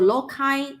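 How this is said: It is said with a British English pronunciation. "in British English"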